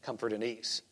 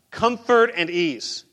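First: Answering his own question, quiet and low; quiet punchline. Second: Spelling out what he cared about on earth, slowly; slow emphasis. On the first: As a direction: comfort and ease dropped much softer and lower. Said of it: "You know what he's concerned about". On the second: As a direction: comfort and ease drawn out slow, each word weighted. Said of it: "concerned about". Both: Shown as a demonstration.

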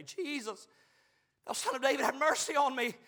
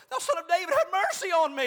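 First: Crying out. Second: Loud, high, insistent plea; crying out louder. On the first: Blind beggar calling to the passing Jesus, crying out. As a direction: call out for mercy. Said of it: "he began to cry out and say". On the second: Blind beggar refusing to hold his peace, shouting desperately to Jesus. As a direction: cry out all the more for mercy. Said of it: "he cried the more a great deal". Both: Acted.

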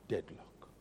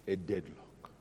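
First: "Deadlock" breathed in a whisper; hushed whispered echo of "Deadlock". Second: Said in the usual way. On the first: Shown as a demonstration. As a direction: whisper "Deadlock" to let it sink in. Repeats deadlock.

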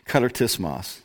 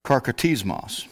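First: "katartismos" with the ka-tar-tis-mos sounds fixed; corrected try. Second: "karkatismos" said with a stray k in the middle; wrong try. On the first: Preacher to congregation, correcting himself on "katartismos". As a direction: get "katartismos" right the second time. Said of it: "they got the accent on the O". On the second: Preacher to congregation, mispronouncing "karkatismos". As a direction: stumble over "karkatismos". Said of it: "Or, I'm sorry". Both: Shown as a demonstration.

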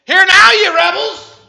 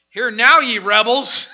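First: Slow, very high, very loud roar; furious Moses. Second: Loud, slow, booming rebuke; slow booming prophet's rebuke; Moses thundering. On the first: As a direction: blast it at the rebels. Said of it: "He's about ready to have a five-alarm fire". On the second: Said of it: "I love it. I can just imagine him". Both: Acted.

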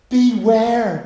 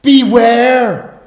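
First: Beware said loud and falling; preacher stressing Beware; stressed warning word. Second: Beware called out high and loud; preacher crying out Beware; urgent loud warning. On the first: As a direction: lean hard on Beware, then let it drop. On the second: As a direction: sound the alarm with Beware. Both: Shown as a demonstration. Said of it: "That's a great word".

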